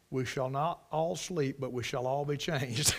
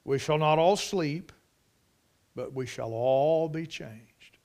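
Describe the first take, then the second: First: Soft, low reading breaking into a laugh; amused deadpan quote. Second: Measured, dropping low and slow on the second half; solemn scripture reading. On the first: Preacher reading the nursery door sign as a joke, tickled. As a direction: quietly deliver the verse as a punchline. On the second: Preacher quoting Paul's mystery to the church, solemn. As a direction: let the verse sink in gravely. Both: Real, not acted.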